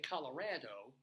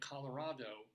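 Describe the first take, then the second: First: The name is said with an anglicized local vowel. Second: The name is said with a Spanish-style vowel. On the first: This is how the locals say it. "Coloradans who say Colorado" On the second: This follows the word's Spanish origin. "instead of Colorado"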